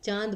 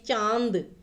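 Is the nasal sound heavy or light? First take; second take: light; heavy. First: The word has only a light nasal vowel. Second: The word has a heavy, strong nasal sound. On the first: The speaker calls it right. "हम चांद बोलते हैं। चांद सीधे यहां से ध्वनि निकलती है, कंठ से।" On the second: The speaker calls it wrong. "नाक पे बहुत ज्यादा फोकस पड़े"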